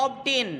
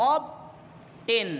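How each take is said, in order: First: Said in the usual way. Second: অব, long pause, টেন; syllable by syllable. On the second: Shown as a demonstration. Teacher counting syllables, অব and টেন said apart with a pause. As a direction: break অব টেন into two separate syllables. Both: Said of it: "তাহলে দুটো এখানে syllable আছে".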